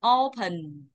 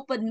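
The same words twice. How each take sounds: First: The stress falls on the first syllable. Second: Both syllables carry equal stress. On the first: The speaker calls it right. "Chọn dây một à?" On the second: The speaker calls it wrong. "không đọc open bằng nhau đâu nha"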